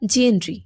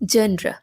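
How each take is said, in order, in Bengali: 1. শব্দটি r-ee উচ্চারণে শেষ হয়। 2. শব্দটি r-a উচ্চারণে শেষ হয়। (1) "বাট ইটস নট ট্রু" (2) "এটা হবে জেন্ড্রা"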